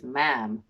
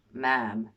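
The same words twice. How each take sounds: First: Put-on a clumsy American accent on Ma'am, drawn out; Ma'am said in an American accent, badly faked. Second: Ma'am in a hammed-up American accent, held long; retry Ma'am in a shaky American accent; bad American accent. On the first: Reading Britney's words to viewers in a bad American accent. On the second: Reading Britney's statement aloud in a bad American accent. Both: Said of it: "sorry about the bad American accent".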